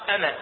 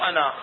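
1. الحركة الأخيرة قصيرة، من غير ألف مد. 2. الحركة الأخيرة ممدودة كألف مد. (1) "تقرأ أنا" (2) "مو أنا"

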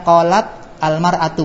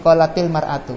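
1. Huruf t berakhir tanpa vokal penyambung. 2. Vokal i pendek menyambung huruf t ke depan.

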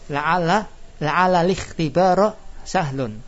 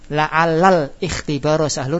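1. Vokal awal hilang, menyambung menjadi 'lihtibaro'. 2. Vokal awal tetap, dibaca 'lal ikhtibaro'. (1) "dua hamzah wasal hilang semua"

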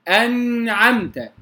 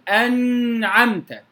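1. يحمل صوت النون غنّة ممدودة. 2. يحمل صوت النون غنّة ممدودة.

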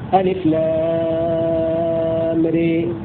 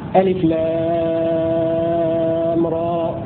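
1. الحركة الأخيرة تميل بقوة نحو ee. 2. الحركة الأخيرة فتحة a خالصة. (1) "هذه إمالة" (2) "هذا فتح"

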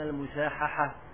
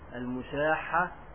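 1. صوت h يتكرر مع حركة بينهما. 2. صوت h مضعّف دون حركة بينهما. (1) "والمشهور على الألسنة المشاححة، حتى يكون مسجوعا مع المسامحة"

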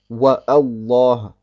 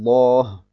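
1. Ein Glottisverschluss trennt die beiden Wörter. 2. Die Wörter gehen ohne Glottisverschluss ineinander über.

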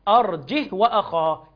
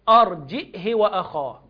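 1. لا همزة، والهاء الأخيرة بدون حركة. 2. همزة، والهاء الأخيرة تأخذ كسرة قصيرة. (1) "لا يقرأ مالوش همز ويقرأ بالسكون" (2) "يبقى يقرأ بالهمزة والكسر بعدم صلة"

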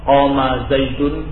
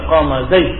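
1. Kata terakhir berakhir dengan akhiran 'un' yang utuh. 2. Kata terakhir berhenti pada konsonan akhir tanpa vokal. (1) "bukan zaidun tapi menjadi zaid"

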